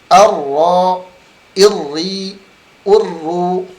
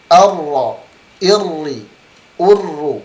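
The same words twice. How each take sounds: Both takes have the same delivery.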